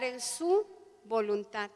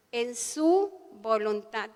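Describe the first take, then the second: First: Said in the usual way. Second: "en su voluntad" dicho despacio, recalcando "su"; slow stress on voluntad. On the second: Shown as a demonstration. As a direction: lean slowly on "su voluntad". (repetición lenta y enfática de "en su voluntad")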